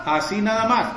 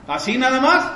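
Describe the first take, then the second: First: Said in the usual way. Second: "¿Así nada más?" asked with a rising end; incredulous rising question; questioning tune. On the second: Shown as a demonstration. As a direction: query it back, voice lifting on "más".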